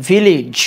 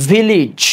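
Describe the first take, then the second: Both takes have the same delivery.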